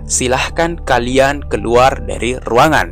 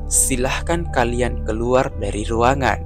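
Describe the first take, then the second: First: It is said in a raised, high tone. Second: It is said in a flat, level tone. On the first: The speaker is angry. "dengan nada tinggi" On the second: The speaker is calm. "dengan nada datar"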